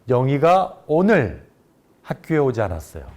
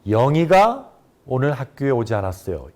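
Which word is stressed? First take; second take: 오늘; 영희가. First: The stress falls on the word 오늘. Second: The stress falls on the word 영희가. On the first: It was today, not another day, that she didn't come. "오늘을 강조해서 말한" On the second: It was this person, not someone else, who didn't come. "영희가에 강세를 줘서 발음"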